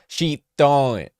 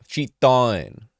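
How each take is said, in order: The two takes are said the same way.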